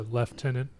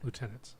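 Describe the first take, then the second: First: Lieutenant said as lef-TEN-ant; lieutenant with an f sound, lef-ten-ant; British lieutenant. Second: Lieutenant said as loo-TEN-ant; Lieutenant with an American loo sound, no f. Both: Shown as a demonstration. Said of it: "That's how we pronounce that".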